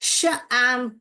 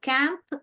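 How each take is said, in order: First: The word begins with a sh sound. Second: The word begins with a k sound. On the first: "तो ये जो है शैम्प, शैम्प हो रहा है" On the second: "क एम्प, कैंप ... तो ये गलत है"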